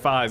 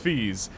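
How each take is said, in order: First: The name is said with an 'eye' vowel. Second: The name is said with an 'ee' vowel. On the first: Someone else mispronounced the name. The speaker calls it wrong. "he goes Garrick Fies" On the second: This is the correct pronunciation of the name. The speaker calls it right. "I say it's Fees"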